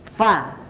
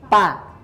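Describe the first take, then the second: First: It starts with a slight breathy f sound. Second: It starts with a closed-lip p sound. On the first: The speaker calls it right. "di situ kan ada hembusan sedikit ya" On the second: The speaker calls it wrong. "bukan seperti ini bacanya pa"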